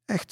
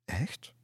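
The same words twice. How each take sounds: First: "Echt" as a short statement, no questioning rise; confirming answer. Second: "Echt" softly asked with a rising tune; disbelieving question. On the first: Lisse reassures doubting Kludde, "Echt" said as confirmation. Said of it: "zei Lisse". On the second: Kludde doubts Lisse's plan, "Echt" asked disbelievingly. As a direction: lift "Echt" into an unsure question. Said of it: "keek haar een beetje ongelovig aan". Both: A narrator's reading.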